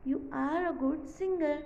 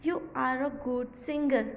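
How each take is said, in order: First: Very slow, word by word; slow model reading; slow short form reading. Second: Very slow, word by word; slow classroom reading; slow model reading. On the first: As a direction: read the contraction slowly. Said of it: "So ये कुछ इस तरह लिखे जाएगा". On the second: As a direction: read slowly for the class. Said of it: "फिर है". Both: Shown as a demonstration.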